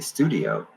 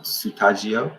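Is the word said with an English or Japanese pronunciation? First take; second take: English; Japanese. First: It is said with an English pronunciation. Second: It is said with a Japanese pronunciation. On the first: "I pronounce it the way that we pronounce it" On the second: "I think is how they say it"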